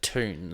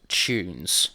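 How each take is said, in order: First: An American accent with a plain, lighter U. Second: An Australian accent with a strongly pronounced U. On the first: "instead of" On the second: "we're Australian, so we overpronounce the U"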